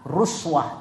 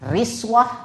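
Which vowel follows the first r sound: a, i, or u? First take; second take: u; i. First: The first vowel is a u sound. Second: The first vowel is an i sound. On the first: "bisa dibaca ruswah" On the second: "Bisa dibaca riswah"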